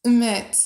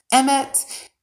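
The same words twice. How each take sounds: First: "Emit" said as uh-MIT; corrected pronunciation. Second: "emit" said as EM-it, with a short e; trying a pronunciation. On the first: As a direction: say "Emit" with a weak first vowel and a clear MIT. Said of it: "I just needed to see the phonetic thing". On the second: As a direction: try "emit" like the name Emmett, raised pitch. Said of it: "is that how you pronounce it?". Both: Shown as a demonstration.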